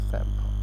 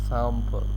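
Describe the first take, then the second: Both takes have the same delivery.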